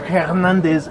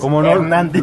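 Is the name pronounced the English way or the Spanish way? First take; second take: English; Spanish. First: The name is pronounced the English way. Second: The name is pronounced the Spanish way. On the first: The speaker calls it wrong. "yo he oído a güeyes que dicen Hernández. Y no es Hernández" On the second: The speaker calls it right. "es Hernández"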